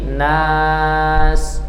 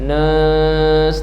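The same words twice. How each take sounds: First: The vowel is said with an open mouth. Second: The vowel is said with a closed mouth. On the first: The speaker calls it right. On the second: The speaker calls it wrong.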